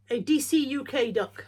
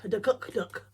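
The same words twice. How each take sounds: First: DCUK said as separate letters, D, C, U, K; spelled out. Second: Brand DCUK run together as "duh-cuck", then "duck"; said as a word. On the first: Naming the brand of a duck, "D C U K" spelled out. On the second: Reading the duck's brand as a word, "duh-cuck duck". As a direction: say the first "duck" as two syllables, "duh-cuck". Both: Shown as a demonstration.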